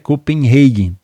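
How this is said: The name is said the English way. This is the international form. "Mas a pronúncia é Copenhagen"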